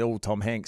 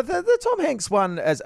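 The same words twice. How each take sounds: First: Flat, quiet letdown; underwhelming. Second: Big build-up, pitch up high; oversold hype. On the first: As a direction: drop it softly, no excitement. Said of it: "I just went". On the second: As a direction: hype the name up dramatically. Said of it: "I oversold it". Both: Shown as a demonstration.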